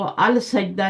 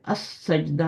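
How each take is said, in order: First: The article's L is clearly pronounced before S. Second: The article's L blends into the S sound. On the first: The speaker calls it wrong. "इसको अल सजदा नहीं पढ़ना।" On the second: The speaker calls it right. "लाम जो है वो स्किप हो रहा है पढ़ने में।"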